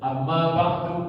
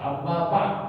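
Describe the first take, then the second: First: The last word ends with a short vowel. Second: The last word ends without a final vowel. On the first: The speaker continues without stopping. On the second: The speaker stops after this phrase.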